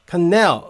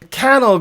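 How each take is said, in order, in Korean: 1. 강세는 두 번째 음절에 있어요. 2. 강세는 첫 번째 음절에 있어요. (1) "이렇게 넬의 강세가 온다" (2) "캐너 그러면 다른 뭔가를 찾는단 말이에요"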